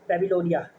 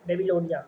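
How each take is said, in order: First: The first syllable sounds like 'bab'. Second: The first syllable sounds like 'baby'. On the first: The speaker calls it right. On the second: The speaker calls it wrong.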